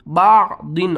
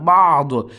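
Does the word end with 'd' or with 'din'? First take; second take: din; d. First: The word ends with a short 'in' sound. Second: The word stops sharply on the final consonant. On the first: This is the form used when reading on without stopping. "दो दो ज़ेर दिन" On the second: This is the form used when stopping at the end. "वक्फ की सूरत में ... आखिरी हर्फ को साकिन करते हैं"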